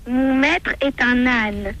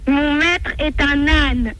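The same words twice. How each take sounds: First: It is said softly, in a small voice. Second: It is said louder than before.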